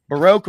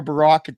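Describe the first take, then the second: First: "Baroque" with a long O, as in broke; first pronunciation. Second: "Baroque" with a short O, as in rock; alternative pronunciation. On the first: Host offers both pronunciations, "Baroque" with long O. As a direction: say "Baroque" to rhyme with oak. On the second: Host offers both pronunciations, "Baroque" with short O. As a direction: say "Baroque" to rhyme with lock. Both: Shown as a demonstration. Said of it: "depending on how you pronounce it".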